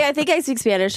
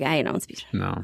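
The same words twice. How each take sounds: First: Naive confidence. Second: Low, deflated admission. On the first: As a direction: say it high, proud of your skill. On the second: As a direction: drop the pitch right down, conceding defeat. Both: Acted. Acts confidence, then deflated self-correction.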